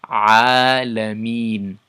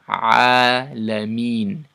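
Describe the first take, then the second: No difference in how they are said.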